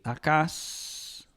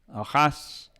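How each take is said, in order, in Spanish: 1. La consonante del medio es un sonido k. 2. La consonante del medio es un sonido h.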